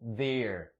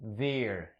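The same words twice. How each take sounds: First: It begins with a soft TH sound. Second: It begins with a soft TH sound.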